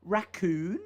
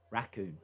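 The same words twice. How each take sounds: First: "Raccoon" rising sharply at the end; questioning RACCOON. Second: Said in the usual way. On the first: Shown as a demonstration. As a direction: say "Raccoon" as if asking. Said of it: "sound like a question". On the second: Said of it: "recorded every word normal".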